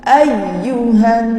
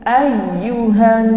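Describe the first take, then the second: No difference in how they are said.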